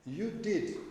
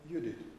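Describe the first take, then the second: First: It is said as an exclamation. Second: It is said as a passing aside. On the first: It expresses surprise or strong feeling. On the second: It is an incidental remark.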